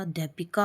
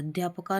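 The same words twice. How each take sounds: First: Said in the usual way. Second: अध्यापका with 'pa' for 'pi'; mispronounced अध्यापका. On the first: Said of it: "अध्यापिका होता है". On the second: Shown as a demonstration. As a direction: say अध्यापका as adh-yaa-pa-kaa. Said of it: "अध्यापका नहीं होता". (अध्यापका में 'पि' की जगह 'प')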